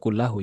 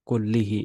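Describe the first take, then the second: First: The word ends with the sounds -ahu. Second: The word ends with the sounds -ihi. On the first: The speaker calls it wrong. "Nggak kullahu ya" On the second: The speaker calls it right. "wa tarku hadza kullihi ya"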